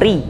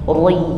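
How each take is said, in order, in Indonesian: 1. Bunyi r tipis dan ringan. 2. Bunyi r tebal dan berat. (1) "Langsung ri" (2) "kalau tergelincir ke tebal bunyinya seperti ini"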